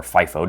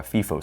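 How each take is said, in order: First: "fifo" starting like the word fife; FIFO as FY-foh. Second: "fifo" starting like the word fee; FIFO as FEE-foh. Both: Shown as a demonstration. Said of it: "depending on however you pronounce it".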